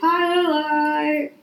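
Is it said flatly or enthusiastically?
flatly. It is said flatly, without enthusiasm.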